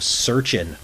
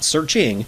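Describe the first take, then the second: First: The word ends without the final g sound. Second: The word ends with a full final g sound. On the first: "taking away the G and putting an apostrophe" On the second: "not searching"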